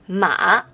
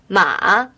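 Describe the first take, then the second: First: The pitch dips down and then rises. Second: The same.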